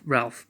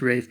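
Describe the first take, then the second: First: The name is said with an audible L. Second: The name rhymes with safe, with no L. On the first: "but it's R A L P H, like a Ralph" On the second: "It's it's pronounced Rafe"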